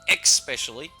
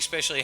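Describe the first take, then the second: First: The word starts with an 'ex' sound. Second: The word starts with a plain 'es' sound. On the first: "there are people I know that say especially" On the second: "Personally, I say especially"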